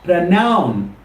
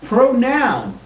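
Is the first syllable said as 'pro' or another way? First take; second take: another way; pro. First: The first syllable is not said as 'pro'. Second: The first syllable is said as 'pro'. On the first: The speaker calls it wrong. "it's not pronoun" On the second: The speaker calls it right. "The correct pronunciation is pronoun. Look at the spelling. P R O"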